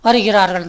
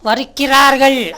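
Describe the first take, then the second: First: The middle k is said as a softened half sound. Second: The middle k is said as a full hard k. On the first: The speaker calls it right. "இந்த கானாவை பாதி உச்சரிப்பாக சொல்லணும்" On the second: The speaker calls it wrong. "உண்மையிலேயே க உச்சரிப்பு வரணும்னா"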